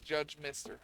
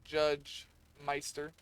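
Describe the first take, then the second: First: The second word sounds like 'Mister'. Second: The second word sounds like 'Meister'. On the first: The speaker calls it right. "no, it's Judge Mister" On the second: The speaker calls it wrong. "I always pronounce it Meister"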